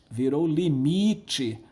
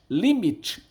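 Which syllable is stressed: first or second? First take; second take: second; first. First: The stress is on the second syllable. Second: The stress is on the first syllable. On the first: This is the later changed form. "a sílaba tônica foi deslocada para frente" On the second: This is the older Latin form. "Limite era limite"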